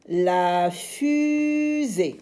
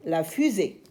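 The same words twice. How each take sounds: First: Fusée drawn out high and slow; stretched z sound. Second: Said in the usual way. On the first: Shown as a demonstration. Teacher models the word slowly, then plainly. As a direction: hold the Z in fusée.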